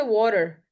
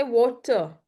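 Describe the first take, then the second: First: American pronunciation of water; "water" in an American accent, leaning on the "-er". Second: British pronunciation of water; "water" in a British accent, ending in an open "-tuh". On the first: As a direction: say "water" the American way, with the final R sounded. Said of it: "emphasis that we have in American English". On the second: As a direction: say "water" the British way, crisp T, no R at the end. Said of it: "we say water in British". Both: Shown as a demonstration.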